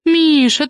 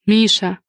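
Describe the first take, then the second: First: His name whined much higher and louder; pouty whine. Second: Gentle. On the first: Hostess pouts at her brother for refusing a toast, whining. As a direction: pout his name like a spoiled sister. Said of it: "капризным голосом". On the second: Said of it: "мягко сказала Алина". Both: Acted.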